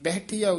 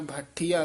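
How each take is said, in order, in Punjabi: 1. ਇਹ ਇੱਕ ਵੱਖਰੇ 'bah' ਅੱਖਰ-ਜੋੜ ਨਾਲ ਸ਼ੁਰੂ ਹੁੰਦਾ ਹੈ। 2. ਇਹ ਮਹਾਂਪ੍ਰਾਣ 'bh' ਧੁਨੀ ਨਾਲ ਸ਼ੁਰੂ ਹੁੰਦਾ ਹੈ। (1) "ਉਚਾਰਨ ਕਰਨਾ" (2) "ਨਹੀਂ ਕਹਿਣਾ"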